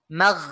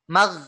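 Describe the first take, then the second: The two takes are said the same way.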